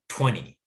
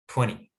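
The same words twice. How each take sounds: First: The middle T is a quick D-like flap. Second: The middle T is a quick D-like flap.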